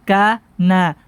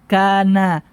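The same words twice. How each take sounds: No difference in how they are said.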